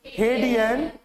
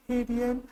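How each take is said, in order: First: Said in the usual way. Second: Mumbled softly under the breath; muttered answer too soft to hear. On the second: Shown as a demonstration. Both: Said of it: "ऐसे नहीं बोलना है".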